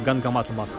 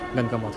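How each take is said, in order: First: The name is said in full as two words. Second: The name is shortened into one fused word. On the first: This is the actual full name. "Но на самом деле это Гангамата Матх" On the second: This is the simplified local way of saying it. "местные жители склонны все упрощать, они обычно говорят Гангаматх"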